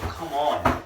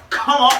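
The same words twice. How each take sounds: First: Said in the usual way. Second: Loud, high hyped yell; hyped shout. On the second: Real, not acted. Hyped by the rap line, shouting Come on.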